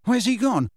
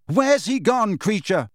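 First: Urgent question. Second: High, loud, stress on Where's; louder repeat. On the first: Harry pressing Kreacher, urgent raised voice. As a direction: push hard for an answer. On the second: Harry repeating his question louder, rising frustration. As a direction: repeat it harder, losing patience. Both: Acted.

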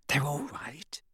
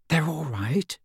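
First: Hushed relieved whisper. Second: Whispered. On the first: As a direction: whisper it, soft and shaky. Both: A narrator's reading. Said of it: "she whispered".

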